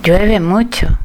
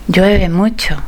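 The two takes are said the same way.

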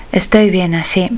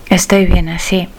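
No difference in how they are said.

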